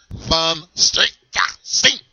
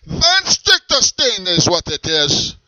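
First: Put-on Van Stichterstein stretched very slowly in German accent; slow, emphatic repeat of Van Stichterstein; drawn-out German name. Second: Put-on slow, proud German accent intro; grandly naming himself in German accent; German accent name. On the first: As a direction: savour Van Stichterstein syllable by syllable. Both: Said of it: "What is your name?".

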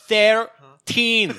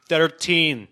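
First: THIRTEEN much higher and louder, heavily Scottish; exaggerated Scottish accent. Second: Put-on THIRTEEN in a Scottish accent, raised and firm; imitated Scottish accent. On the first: Scot repeats the floor to a deaf elevator, exaggerated Scottish accent. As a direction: belt out "Thirteen" as an exasperated mock Scot. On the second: Scot gives a voice elevator the floor, Scottish accent. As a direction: say "Thirteen" as a Scot, a bit louder and higher. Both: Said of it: "understand a Scottish accent".

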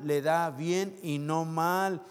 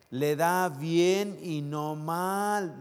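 First: A bit quicker echo, ending on "mal"; slow repeat. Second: Drawn-out "bien" and "mal", each word held; very slow emphasis. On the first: Pastor echoing the verse to the church, slow repeat. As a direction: repeat it firmly once more. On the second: Pastor savouring the verse for the church, very slow. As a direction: let every word land slowly. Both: Shown as a demonstration. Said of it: "verse said twice".

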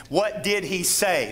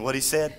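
First: Said in the usual way. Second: Light Cajun accent for "What he said?"; a hint of Cajun accent. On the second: Shown as a demonstration. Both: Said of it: "We don't say that".

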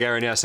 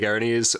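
First: Erinyes said as "AIR-in-yes"; one valid pronunciation. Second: Erinyes said as "AIR-uh-neez"; other valid pronunciation. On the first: Giving the co-host one version, Erinyes pronounced AIR-in-yes. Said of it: "maybe you take Erinyes". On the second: Keeping the other version for himself, Erinyes pronounced AIR-uh-neez. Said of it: "and I'll take Erinyes". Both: Shown as a demonstration.

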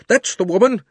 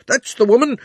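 First: Shouted again, still high; crying out. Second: High shouted accusation; crying out. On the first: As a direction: repeat the yell insistently. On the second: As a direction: yell it out, pointing. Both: A narrator's reading. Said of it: "cried the fat man".

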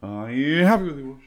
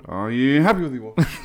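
First: Passing by doppler. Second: Higher, louder doppler swoop; like a car whizzing past; passing by doppler. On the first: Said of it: "Good, wasn't it?". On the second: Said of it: "Nice, nice Doppler effect". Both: Pretend.

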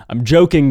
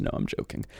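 First: Louder reassurance. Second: Whispered aside; hushed whispered aside. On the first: Repeated louder. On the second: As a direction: whisper it to yourself. Whispered aside then said aloud. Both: Real, not acted.

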